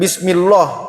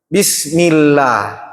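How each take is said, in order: First: The l sound is thick and heavy. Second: The l sound is thin and light. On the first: The speaker calls it wrong. "jadi bukan" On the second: The speaker calls it right. "Bismillah tipis"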